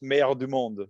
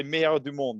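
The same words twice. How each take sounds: First: Meilleur du monde in proper French, rolled and nasal; French pronunciation. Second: Meilleur du monde said again in French, falling at the end; French pronunciation. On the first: Player gives his friend's French nickname in French. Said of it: "nickname in French is". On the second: Player tells the host how to say the nickname in French. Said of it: "Just say meilleur du monde". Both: Shown as a demonstration.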